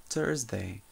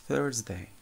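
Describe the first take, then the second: No difference in how they are said.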